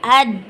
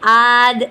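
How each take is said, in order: First: The vowel is short and the consonant stops abruptly. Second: The vowel is drawn out long before the consonant. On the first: The speaker calls it right. "लंबा नहीं करना, साकिन करना है" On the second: The speaker calls it wrong. "ये भी गलत है"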